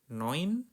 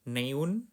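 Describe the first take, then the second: First: The vowel is said as an oi sound. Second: The vowel is read as separate e and u. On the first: The speaker calls it right. "Huruf E U dibacanya oi" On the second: The speaker calls it wrong. "bukan neun"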